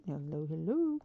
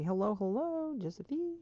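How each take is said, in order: First: Said in the usual way. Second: Lilting, higher hello to a pet Sim; bouncy cheerful hello; singsong greeting. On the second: Real, not acted. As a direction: greet her playfully.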